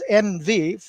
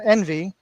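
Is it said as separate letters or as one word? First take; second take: separate letters; one word. First: It is said as two letters, en-vee. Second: It is said as one word, en-vy. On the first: It is an abbreviation for night vision. The speaker calls it right. "it's the letters N V" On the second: It names the feeling of jealousy. The speaker calls it wrong. "not envy, like as envious"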